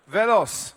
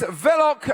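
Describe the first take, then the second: First: The name ends with an s sound. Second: The name ends with a k sound. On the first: The speaker calls it right. "it's actually Velos" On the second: The speaker calls it wrong. "Have I pronounced that correctly?"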